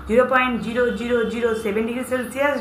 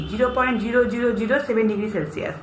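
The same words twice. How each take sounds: First: zero point zero zero zero seven degree Celsius read as one option in a list, rising at the end. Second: zero point zero zero zero seven degree Celsius given as the final answer, falling at the end; stating the answer. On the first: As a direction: read Celsius with a lifting, unfinished tune. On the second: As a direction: settle down on Celsius with a closing fall. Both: Shown as a demonstration. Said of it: "উত্তর হবে C".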